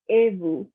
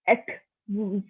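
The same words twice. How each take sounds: First: "vous" said as "voo", the s stays silent; correct French. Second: "vous" said with a sounded final s, as "vooz"; wrong way. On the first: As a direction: say "Et vous" with no final consonant. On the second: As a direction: overdo the s at the end of "vous". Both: Shown as a demonstration.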